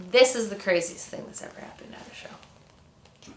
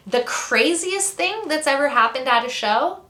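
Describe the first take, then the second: First: Whispered, confiding build-up to a story; hushed emphasis. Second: Said in the usual way. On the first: Real, not acted. Storyteller announcing the craziest show story, hushed and whispered. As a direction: whisper it like a big reveal.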